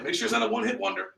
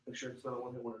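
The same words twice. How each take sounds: First: Quick, higher-pitched encouragement; engaged salesman. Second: Low, barely audible throwaway line; unenthusiastic salesman. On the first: Trainer showing the right demo to reps, engaged. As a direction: briskly egg the customer on. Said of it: "So when they cut through that rope". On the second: Trainer mimicking a dull sales rep, unenthusiastic. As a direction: murmur it with zero conviction. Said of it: "Is that showing your belief and your conviction". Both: Shown as a demonstration.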